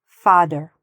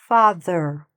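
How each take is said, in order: First: The middle consonant sounds like a d. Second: The middle consonant is a soft th sound. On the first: The speaker calls it wrong. "it might sound like father" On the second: The speaker calls it right. "No, father. It's much softer"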